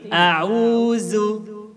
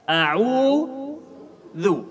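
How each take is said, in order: First: The consonant is made with the tongue tip hidden. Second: The consonant is made with the tongue tip out. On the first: The speaker calls it wrong. "Bukan seperti ini. ... Kalau ujung lidah tidak terlihat, pasti hurufnya berbeda" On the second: The speaker calls it right. "Jadi harus kita mengeluarkan sedikit ujung lidah"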